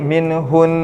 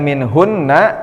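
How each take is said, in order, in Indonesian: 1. Kata itu berakhir pada konsonan n. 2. Kata itu berakhir dengan vokal setelah n. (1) "jadi minhun" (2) "yang tadinya minhunna"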